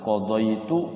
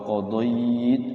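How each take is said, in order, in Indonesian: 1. Dibaca terus, vokal akhirnya dipertahankan. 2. Berhenti pada kata, vokal akhirnya dihilangkan. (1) "Kalau tidak diwaqaf" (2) "kalau diwaqaf"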